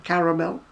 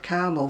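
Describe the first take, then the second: First: "Caramel" as CA-ra-mel, middle a sounded; three-syllable British caramel. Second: "caramel" as CAR-mul, middle a dropped; American two-syllable caramel. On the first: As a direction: give all three syllables of "Caramel", ending on a rise. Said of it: "there's definitely an, an A in it". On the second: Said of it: "where you get caramel from". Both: Shown as a demonstration.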